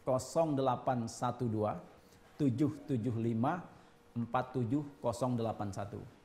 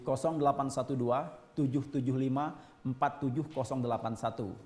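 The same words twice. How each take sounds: First: The number is read more slowly. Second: The number is read at normal speed.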